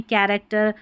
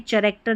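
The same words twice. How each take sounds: First: कैरेक्टर starting with a hard k; correct pronunciation. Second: चैरेक्टर starting with a ch sound; wrong pronunciation. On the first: Teacher corrects the word for learners, कैरेक्टर with k. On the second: Teacher shows learners the mistake, चैरेक्टर with ch. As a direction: misread character as "chai-rector", चैरेक्टर. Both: Shown as a demonstration. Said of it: "चैरेक्टर नहीं कैरेक्टर".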